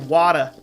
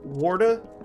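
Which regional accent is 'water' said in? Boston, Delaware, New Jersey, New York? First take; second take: Boston; New York. First: The word is said in a Boston accent. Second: The word is said in a New York accent. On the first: "It's kind of like Boston. They say Wada. That Boston accent" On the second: "You pronounce it the same as New York"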